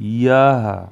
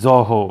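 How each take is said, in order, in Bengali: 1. শব্দটি 'y' ধ্বনি দিয়ে শুরু হয়। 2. শব্দটি 'j' ধ্বনি দিয়ে শুরু হয়। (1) "সংস্কৃত ভাষায় উচ্চারণটা হয় ইয়াহা" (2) "আমরা কিন্তু এরকম বলতে পারি, কিন্তু না"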